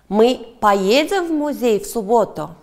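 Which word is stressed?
поедем. The stress falls on the word 'поедем'. The question asks whether they will go. "Да, поедем"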